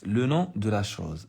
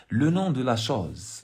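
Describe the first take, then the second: First: Said in the usual way. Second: Nom said slowly and stressed; slow and deliberate on nom. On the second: Shown as a demonstration. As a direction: weigh each word, stress nom. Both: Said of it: "reading the text aloud".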